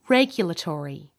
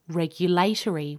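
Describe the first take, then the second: First: The stress is on the first syllable. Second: The stress is on the third syllable. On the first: "American English speakers tend to put the stress on the first syllable, so they say regulatory" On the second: "British and Australian speakers will tend to say regulatory with the stress on the third syllable"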